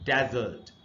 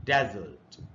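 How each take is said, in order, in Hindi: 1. Stress पहले अक्षर पर है। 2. स्ट्रेस पहले अक्षर पर है।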